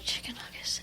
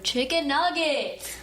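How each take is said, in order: First: The phrase is whispered very softly. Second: The phrase is said louder in full voice. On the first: "me whispering chicken nuggets" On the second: "I said it louder"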